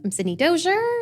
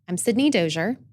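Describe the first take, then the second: First: The voice rises at the end. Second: The voice falls at the end. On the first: The speaker calls it wrong. "I caught myself doing the upspeak... I went up" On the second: The speaker calls it right. "then I changed"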